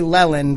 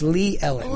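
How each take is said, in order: First: The two names merge into one word. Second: The two names are said as separate words. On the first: The speaker calls it wrong. "I want to say Lellen" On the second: The speaker calls it right. "but it's Lee Ellen"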